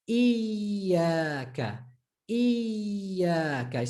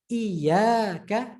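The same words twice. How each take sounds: First: Iyaka with a long iyy before the a; stressed, held ya. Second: Said in the usual way. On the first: Shown as a demonstration. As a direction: hold the y in iyaka, slowly. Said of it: "stressing it and holding it a bit". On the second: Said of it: "So instead of iyaka".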